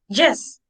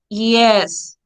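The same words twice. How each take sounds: First: It starts with a harder consonant sound. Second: It starts with a soft semi-vowel glide. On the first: The speaker calls it wrong. "sometimes people say yes" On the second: The speaker calls it right. "the correct pronunciation is yes, because this is like a semi-vowel"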